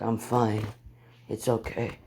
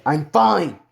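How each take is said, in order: First: Soft, low-key dismissal; calm reassurance. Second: Loud, emphatic FINE; irritated insistence. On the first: Injured hero to those helping him, calm reassurance. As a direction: gently wave off the help. Hurt hero waves off helpers. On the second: Hero to insistent healers, irritated insistence. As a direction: push the word FINE out hard. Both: Acted.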